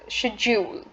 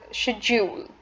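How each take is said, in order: First: It is pronounced in a British English way. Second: It is pronounced in a British English way.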